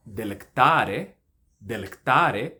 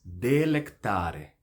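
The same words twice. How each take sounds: First: Delectare with a quick "de", strong TA; wrong vowel length. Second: Slow delectare with long "de" and "ta"; measured delectare, first vowel held; correct vowel length. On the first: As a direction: rush into a loud TA in delectare. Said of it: "A palavra não é". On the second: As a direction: draw out DE and TA in delectare. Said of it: "mas delectare". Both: Shown as a demonstration.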